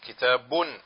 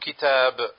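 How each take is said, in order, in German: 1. Das Wort endet auf einen angehängten 'un'-Laut. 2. Das Wort endet auf einen einfachen 'b'-Laut. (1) "Wenn du sagst Kitabun Jamilun, dann sagst du eben diese Tanuin" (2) "Aber wenn du stoppst, dann sagst du Kitab"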